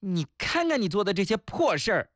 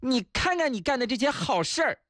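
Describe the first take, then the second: First: Higher-pitched nagging telling-off; scolding wife. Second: Much higher-pitched, sneering telling-off; sarcastic scolding wife. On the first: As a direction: play a wife scolding her husband. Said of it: "今天我老婆骂我". (老婆骂人的口气) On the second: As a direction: scold him with sarcastic praise. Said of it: "我老婆果然接受了我的建议". (老婆阴阳怪气地骂) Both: Acted.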